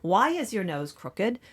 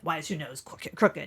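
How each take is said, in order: First: It sounds innocently curious, like a child. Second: It sounds judgmental and accusing.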